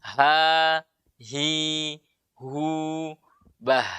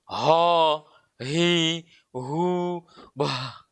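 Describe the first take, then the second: First: HA, HI, HU held light, BAH ending in breath; thin ha. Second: HA darkened to HO, HI, HU, BAH from too deep; heavy, hollow-mouthed "ha, hi, hu, bah"; too deep, thick. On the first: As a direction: keep "Ha, hi, hu, bah" thin and airy. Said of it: "ha ini huruf tipis". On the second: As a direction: thicken each h and vowel deep in the throat. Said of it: "Itu terlalu dalam". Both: Shown as a demonstration.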